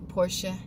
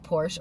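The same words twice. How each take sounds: First: The name is said with a German accent. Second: The name is said with an English accent.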